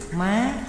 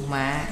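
First: The pitch rises sharply to high. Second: The pitch drops low and is cut short. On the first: "thượng thanh, thí dụ má, dấu sắc" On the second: "Hạ thanh, thí dụ mạ, dấu nặng"

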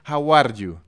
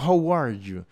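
First: The R is pronounced like a Spanish r. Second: The R is pronounced like an English r. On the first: "hablar inglés con la R en español"

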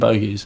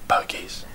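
First: It is screamed loudly. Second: It is said quietly.

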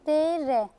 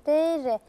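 The two takes are said the same way.

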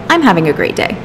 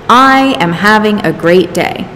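First: The words 'I am' are contracted to 'I'm'. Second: The words 'I am' are said in full as two words. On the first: It sounds natural, like everyday speech. The speaker calls it right. "So I started saying" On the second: It sounds stiff and unlike normal speech. The speaker calls it wrong. "It sounds very robotic"

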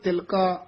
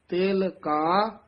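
First: The two words are run together as one. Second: The two words are kept clearly separate. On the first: The speaker calls it wrong. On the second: The speaker calls it right.

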